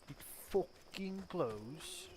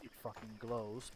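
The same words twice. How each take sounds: First: It is said in a put-on British accent. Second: It is said in the speaker's usual accent.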